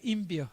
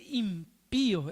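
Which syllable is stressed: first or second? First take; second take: first; second. First: The stress falls on the first syllable. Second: The stress falls on the second syllable. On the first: The speaker calls it wrong. "los chicos leían y el acento ponían, no, decía" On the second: The speaker calls it right. "El acento está en, en la segunda I"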